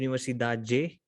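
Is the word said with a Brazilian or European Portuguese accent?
Brazilian. It is said with a Brazilian Portuguese accent.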